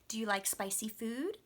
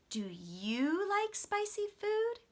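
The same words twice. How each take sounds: First: The strongest stress falls on the word food. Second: The strongest stress falls on the word you. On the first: The speaker is asking a new question. "My strong stress will be on food" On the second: The same question is given back to the other person. "the strong stress went on that pronoun"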